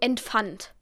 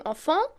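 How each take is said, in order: First: It is pronounced with German sounds. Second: It is pronounced with French sounds. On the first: The speaker calls it wrong. "wie ich es in meiner Sprache, die ich schon gelernt habe als Muttersprache, sagen würde" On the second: The speaker calls it right. "dann würde ich nicht sagen enfant"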